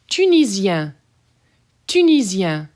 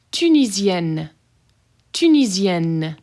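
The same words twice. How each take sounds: First: Tunisien ending nasal, no N. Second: Tunisienne with a very hard double N. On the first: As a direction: keep Tunisien open and nasal. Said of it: "Double N's get hard". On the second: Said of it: "Double N's get hard, pronounced very hard". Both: Shown as a demonstration.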